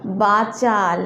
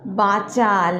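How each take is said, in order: Both takes have the same delivery.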